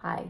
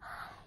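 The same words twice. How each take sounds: First: The word is spoken aloud in full voice. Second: The word is whispered without full voice. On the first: "he doesn't go hi" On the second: "but he whispers it"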